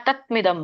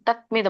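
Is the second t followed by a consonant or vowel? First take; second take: consonant; consonant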